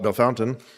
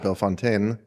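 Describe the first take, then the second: First: The name is said the way locals say it. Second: The name is said the way an outsider says it. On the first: "the locals call it Bellefontaine" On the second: "I would pronounce it Bellefontaine"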